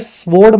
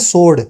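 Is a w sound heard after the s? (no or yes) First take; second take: yes; no. First: A w sound is heard after the s. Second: No w sound is heard after the s. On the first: The speaker calls it wrong. "स्वॉर्ड मत बोलना" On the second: The speaker calls it right. "इसको बोलते हैं सोर्ड, ये डब्ल्यू नहीं बोलते"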